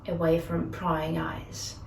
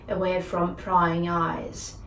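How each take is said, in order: No difference in how they are said.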